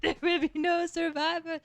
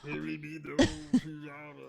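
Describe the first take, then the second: First: Higher, playful copy of the French pirate line; imitating the French accent. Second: French accent. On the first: Friend echoing the French pirate line, mock accent. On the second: Shown as a demonstration. Player repeating his French character's line, French accent. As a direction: let the pirate boast fade out. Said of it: "French character".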